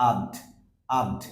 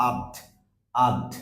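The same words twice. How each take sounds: No difference in how they are said.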